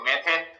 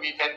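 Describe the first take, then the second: First: It is said in the Hindi style. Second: It is said in the English style. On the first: "Hindi pronounce करते हैं तो मेथेन" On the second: "English pronounce करते हैं तो मीथेन"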